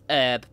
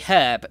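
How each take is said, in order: First: The word begins without any h sound. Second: The word begins with a clear h sound. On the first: This is the American way of saying it. The speaker calls it wrong. "not herb" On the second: This is the English way of saying it. The speaker calls it right. "I say herb, because there is an H in that word"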